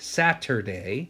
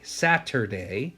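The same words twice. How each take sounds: First: Every sound in the word is carefully pronounced. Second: Every sound in the word is carefully pronounced.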